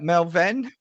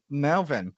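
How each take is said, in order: First: MELVIN tried out high and louder, rising as a question; unsure pronunciation. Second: Said in the usual way. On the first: Real, not acted. Host trying a viewer's name aloud, unsure of its pronunciation. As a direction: sound out "Melvin" questioningly, pitched up. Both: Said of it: "how do I pronounce that?".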